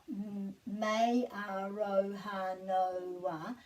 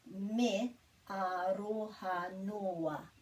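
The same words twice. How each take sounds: First: The word noa sounds like English Noah. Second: The word noa has two clear separate vowels. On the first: The speaker calls it wrong. "So it's not Noah. It's not me aroha noa" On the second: The speaker calls it right. "it's me aroha noa"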